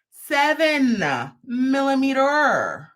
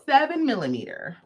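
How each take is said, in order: First: SEVEN and MILLIMETER stretched long and high with a pause between; drawn-out reveal. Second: Said in the usual way. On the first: Shown as a demonstration. Host revealing a rare hook size, "seven millimeter" slowly drawn out.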